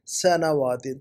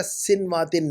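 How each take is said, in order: First: سنواتن as "sa-na-waa-tin"; correct pronunciation. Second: سنواتن as "sin-waa-tin"; mispronunciation. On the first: Teacher asks student to fix the word, correct pronunciation. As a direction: open سنواتن with two syllables "sa-na". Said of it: "الفاظ کو صحیح کیجیے گا". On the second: Teacher likens it to earlier error, mispronunciation. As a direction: say سنواتن with closed "sin" first. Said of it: "اسی طرح سنواتن نہیں ہے". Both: Shown as a demonstration.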